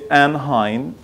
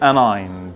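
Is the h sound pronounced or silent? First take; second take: pronounced; silent. First: The h sound is pronounced after an. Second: The h sound is silent after an. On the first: "many people say anhine" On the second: "I guess it should be anigned"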